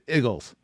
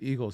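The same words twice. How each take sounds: First: The word has a local Philadelphia-area pronunciation. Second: The word has a standard American pronunciation. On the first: "even though you're from Delco" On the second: "actually say Eagles correctly"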